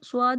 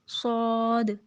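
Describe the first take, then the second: First: The lips round, adding a w-glide. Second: The sound is heavy with no w-glide. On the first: The speaker calls it wrong. "स्वाद नहीं" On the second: The speaker calls it right. "पुर करना है, मोटा करना है"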